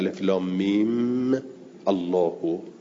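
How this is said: It stops on mim, then Allah starts with a glottal stop. "فکأنه قدر الوقف علی المیم"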